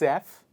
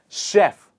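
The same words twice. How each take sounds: First: It begins with a harder sound, not sh. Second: It begins with a soft sh sound. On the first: The speaker calls it wrong. "If you are still saying chef, no problem" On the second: The speaker calls it right. "I will take my tongue in the middle of the mouth"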